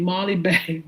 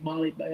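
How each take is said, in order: First: Said in the usual way. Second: Softer, giggling through the name; laughing to herself. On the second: Real, not acted. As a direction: laugh at your own slip, half under your breath. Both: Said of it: "I'm saying ball bag".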